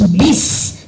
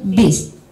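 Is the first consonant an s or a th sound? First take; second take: s; th. First: The consonant is a hissing s sound. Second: The consonant is a soft th sound. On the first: The speaker calls it right. "bacakan harus bis" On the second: The speaker calls it wrong. "tidak boleh bis, tidak boleh huruf sa"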